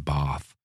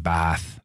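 First: It is said the way outsiders say it. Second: It is said the way Bath locals say it.

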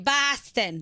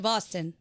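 First: It is said in an exaggerated, stereotyped Boston accent. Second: It is said the natural way locals say it. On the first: This is not how locals say it. The speaker calls it wrong. "people in Boston don't say Boston" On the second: This is how locals say it. The speaker calls it right. "They say Boston"

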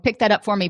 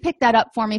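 First: The tone is snarky and irritable. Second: The tone is polite and friendly. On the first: The speaker calls it wrong. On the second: The speaker calls it right.

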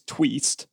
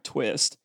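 First: The vowel is a long ee sound. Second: The vowel is a short i sound. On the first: The speaker calls it right. "it's tweest" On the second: The speaker calls it wrong. "not twist"

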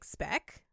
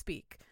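First: The vowel is short, rhyming with deck. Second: The vowel is long, rhyming with seek. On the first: The speaker calls it wrong. "I was like, speck?" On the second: The speaker calls it right. "luckily it's pronounced speak"

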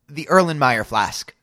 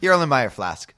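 First: The phrase is said at a slow pace. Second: The phrase is said at a fast pace. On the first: The speaker calls it wrong. "That's not fast" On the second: The speaker calls it right. "There you go"

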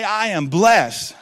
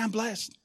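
First: It is shouted at full volume. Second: It is said at normal volume.

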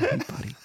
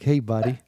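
First: It is said in a whisper. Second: It is said in a normal voice.

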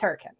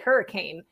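First: Said the local way, as for the town. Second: Said the ordinary way, as for the storm. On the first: It refers to the town. "But the town is Hurricane" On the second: It refers to a storm. "if you were talking about a hurricane, we would say hurricane"

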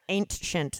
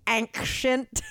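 First: The word is said in a flat, plain way. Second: The word is said in a lively, dramatic way. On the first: The speaker calls it right. "I'll say it right. It sounds so boring that way" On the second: The speaker calls it wrong. "dare I say"

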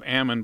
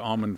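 First: It is said the local Central Valley way. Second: It is said the general, widespread way. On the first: This is the pronunciation the speaker personally prefers. "My choice is almond" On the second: This is the pronunciation used for a general audience. "I'm going to say almond for the general audience"

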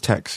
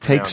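First: The vowel is short, like in 'sex'. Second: The vowel is long, like in 'makes'. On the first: "they say it's Tex" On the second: "I call it takes"

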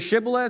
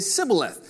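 First: The word begins with an 'sh' sound. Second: The word begins with an 's' sound. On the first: The speaker belongs to one tribe. "some people say Shibboleth" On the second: The speaker belongs to the other tribe. "some people say Sibboleth"

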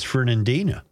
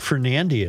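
First: The name ends with an n before final a. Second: The name ends without an n before final a. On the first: The speaker calls it right. "It's Fernandina" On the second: The speaker calls it wrong. "That's not Fernandia"

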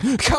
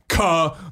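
First: It is said plainly, without force. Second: It is said forcefully, from the gut.

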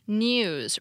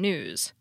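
First: It is said with a British pronunciation. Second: It is said with an American pronunciation. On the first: "British English preferences are found in words like news, which is pronounced news" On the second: "rather than news"

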